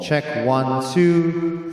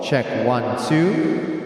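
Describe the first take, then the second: First: The voice has reverb of a smaller hall. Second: The voice has reverb of a larger hall. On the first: "Smaller hall" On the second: "bigger hall"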